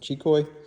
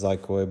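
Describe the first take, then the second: First: The name is said the way its makers say it. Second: The name is said the common American way. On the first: This is how the makers themselves say it. "but I think they pronounce it Chikoi" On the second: This is how people in the US say it. "here in the U S, everybody says Zikoi"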